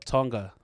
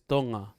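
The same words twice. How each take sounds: First: The ng is followed by a hard g. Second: The ng is a single nasal sound. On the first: This is how people here say it. The speaker calls it wrong. "out here they call it Tonga" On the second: This is the proper local pronunciation. The speaker calls it right. "proper pronunciation is Tonga"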